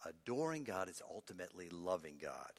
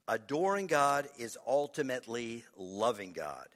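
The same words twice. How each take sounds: First: Much softer and lower; hushed restatement. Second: Firm, projected key point; emphatic statement. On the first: Preacher repeating the key point to congregation, hushed. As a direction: let the point sink in quietly. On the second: Preacher announcing the last point to congregation, emphatic. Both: Real, not acted.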